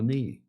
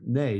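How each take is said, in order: First: The vowel sounds like the 'ee' in 'see'. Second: The vowel sounds like the 'ay' in 'say'. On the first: The speaker calls it right. "no, knee" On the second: The speaker calls it wrong. "You pronounce it nay? That's what a horse does"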